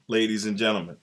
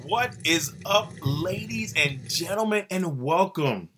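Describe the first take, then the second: First: Said in the usual way. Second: Higher, slow, stretched-out showman call; hype announcer intro. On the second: Acted. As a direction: draw it out like an arena announcer. Hyping the podcast opening.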